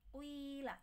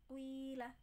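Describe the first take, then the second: Both takes have the same delivery.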